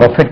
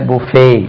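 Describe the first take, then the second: First: The word ends with a 't' sound. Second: The word ends with a vowel sound. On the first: It means to strike or hit. The speaker calls it wrong. "அது பஃபெட் இல்ல" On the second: It means a self-service meal. The speaker calls it right.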